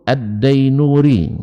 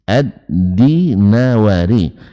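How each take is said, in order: First: After 'Ad' it has three syllables, 'Dai-nu-ri'. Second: After 'Ad' it has four syllables, 'Di-na-wa-ri'. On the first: The speaker calls it wrong. "jadi bukan Ad-Dainuri" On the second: The speaker calls it right. "ternyata yang benar adalah Ad-Dinawari"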